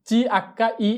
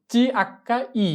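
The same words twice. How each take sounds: The two takes are said the same way.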